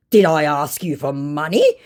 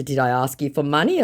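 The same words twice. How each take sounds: First: Mock indignant. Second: Said in the usual way. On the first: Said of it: "unironically indignant response". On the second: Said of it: "And in response to".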